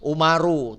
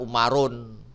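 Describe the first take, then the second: First: The word ends in a plain u sound. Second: The word ends in an added n sound. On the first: The speaker calls it right. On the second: The speaker calls it wrong.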